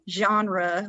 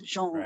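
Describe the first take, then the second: First: It is said with an English pronunciation. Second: It is said with a French pronunciation. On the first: "like English" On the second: "he says it in a very French way"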